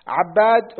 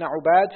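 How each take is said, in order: First: عباد as ʿabbād, a then held b; fatha, doubled b. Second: عباد as ʿubād, u then light b; damma, single b. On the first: Student reading names to his teacher, عباد as ʿabbād. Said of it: "بفتح العين وتشديد الباء". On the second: Student reading names to his teacher, عباد as ʿubād. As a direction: round عباد with u, keep ب single. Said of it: "بضم العين وتخفيف الباء". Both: Shown as a demonstration.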